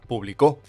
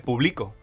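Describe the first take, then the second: First: The stress is on the last syllable. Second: The stress is on the middle syllable. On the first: Someone published in the past. "la tilde iría en la O del final" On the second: I publish now. "sin tilde no pone público, pone publico"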